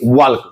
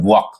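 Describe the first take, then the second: First: The L is clearly sounded in the word. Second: The L is silent in the word. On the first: The speaker calls it wrong. "ना कि वॉल्क" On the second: The speaker calls it right. "इसे हम लोग पढ़ते हैं वॉक"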